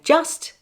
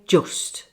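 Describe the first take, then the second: First: The vowel is the open standard southern British sound. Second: The vowel is the rounded northern English 'oo' sound. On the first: "I say" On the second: "they say"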